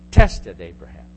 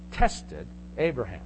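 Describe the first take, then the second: First: "Tested" punched loud, then dropping away on "Abraham"; a sudden loud attack on "Tested"; stress on Tested. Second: Said in the usual way. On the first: Shown as a demonstration. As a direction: hit "Tested" hard and let the name fall low. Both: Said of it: "I emphasized the word".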